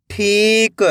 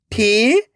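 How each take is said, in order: First: ठीक joined as one word with long ई; blended word. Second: ठीक split into ठी, pause, क; drawn-out ठी rising, then क alone; syllable by syllable. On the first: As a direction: read ठीक whole, stretching the ठी. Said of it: "खींच के पढ़ना है". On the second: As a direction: sound out ठीक in two separate parts. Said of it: "एक एक अक्षर का उच्चारण करना है". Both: Shown as a demonstration.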